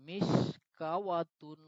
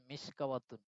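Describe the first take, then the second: First: মিশকাওয়াতুন read very slowly, syllable by syllable; slow spelled-out reading. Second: Said in the usual way. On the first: Shown as a demonstration. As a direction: drag out মিশকাওয়াতুন as it looks written. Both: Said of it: "বাহ্যিকভাবে বোঝা যায়".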